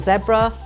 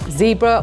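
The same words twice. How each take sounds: First: The word is said with an English accent. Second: The word is said with an American accent. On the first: "American and English pronunciations" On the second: "American and English pronunciations"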